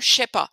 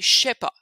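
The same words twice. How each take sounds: First: It starts with a full 'je' syllable. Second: It starts with a long 'ch' sound. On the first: The speaker calls it wrong. "c'est pas" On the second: The speaker calls it right. "ch, un long ch"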